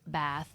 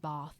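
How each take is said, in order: First: The vowel is a flat, wide American sound. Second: The vowel is a long, open British sound. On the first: "instead of like it being bath" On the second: "it would be bath ... it like shifts to a different sound"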